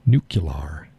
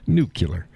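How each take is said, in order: First: "nuclear" ending in an open LAR; low, trying out "nuclear" as NOO-kyuh-lar; alternative pronunciation. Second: "nuclear" ending in ler; own pronunciation. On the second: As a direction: say "nuclear" as NOO-kyuh-ler. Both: Shown as a demonstration. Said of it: "I say nuclear".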